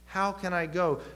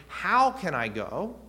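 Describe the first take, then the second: First: Higher-pitched, falling challenge on the question; incredulous question. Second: Slow, higher, louder question rising at the end; sincere question. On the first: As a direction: question it as if doubting it can be done. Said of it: "him asking it incredulously". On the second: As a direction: genuinely ask for guidance, drawing it out. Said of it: "it's a little bit of a question". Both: Shown as a demonstration.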